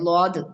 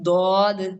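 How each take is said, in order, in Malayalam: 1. ഈ വാക്ക് L പോലെയുള്ള ശബ്ദത്തിലാണ് തുടങ്ങുന്നത്. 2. ഈ വാക്ക് കട്ടിയുള്ള D പോലെയുള്ള ശബ്ദത്തിലാണ് തുടങ്ങുന്നത്. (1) "ലോദ് ലോദല്ല" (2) "അത് ആക്ച്വലി ദ്വാദ് എന്നാണ്"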